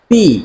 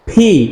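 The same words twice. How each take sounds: First: The P has a weak burst from closed lips. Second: The P has a strong burst from closed lips. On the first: The speaker calls it wrong. "Not পি" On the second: The speaker calls it right. "So দুই ঠোঁট একসাথে করে একটা stress থাকবে"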